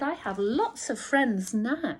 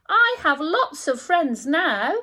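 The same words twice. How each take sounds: First: It is said at a normal, quiet volume. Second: It is said very loudly.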